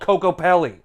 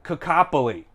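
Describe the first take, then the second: First: The name is pronounced in the ordinary way. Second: The name is pronounced in an odd, distorted way. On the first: The speaker calls it right. "It's called Coco Pelli" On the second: The speaker calls it wrong. "I guarantee you he's gonna say like Cacopoli"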